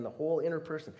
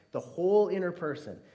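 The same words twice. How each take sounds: First: Said in the usual way. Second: Louder, higher, pressing on "whole"; emphatic repeat. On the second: Acted. Preacher pressing the point on the congregation, loud emphatic repeat. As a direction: proclaim it with force.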